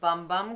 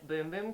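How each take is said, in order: First: The vowel is a short 'uh' sound. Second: The vowel is a long 'oo' sound. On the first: The speaker calls it wrong. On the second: The speaker calls it right.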